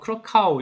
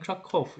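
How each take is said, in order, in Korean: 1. 이름은 'cow' 소리로 끝납니다. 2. 이름은 'kof' 소리로 끝납니다. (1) "영어식으로는 뭐 크라카우 이렇게 되겠지만" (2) "아마 폴란드에서 읽을 땐 크라코프 이렇게 읽어야 될 겁니다"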